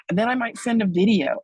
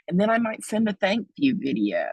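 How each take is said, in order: First: Excited. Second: Whisper. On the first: Same line repeated, louder and higher. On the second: Listing follow-ups after a donation. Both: Acted.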